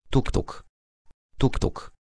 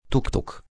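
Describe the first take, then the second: First: "Tuk, tuk" breathed in a whisper, fading off; soft whispered clack of the wheels; whispered train wheels. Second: Higher, softer "Tuk, tuk" tapped out like rail joints; voiced, soft "tuk, tuk" ticking along the track; a gentle mimicked train rhythm; train wheels clacking. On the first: Acted. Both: Stukały koła po torach.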